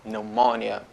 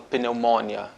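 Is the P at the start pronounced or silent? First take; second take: pronounced; pronounced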